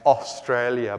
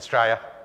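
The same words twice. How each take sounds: First: All the syllables of the word are said. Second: The word is clipped to fewer syllables. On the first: "being changed to" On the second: "being changed to Australia"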